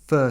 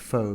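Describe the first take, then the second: First: The word sounds like 'fur', with an 'er' vowel. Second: The word sounds like 'foe', with an 'oh' vowel. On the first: It is said the way native speakers say it. "I like to pronounce it the way they do, the way Vietnamese people do" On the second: It is read the way it is spelt. "It looks like pho"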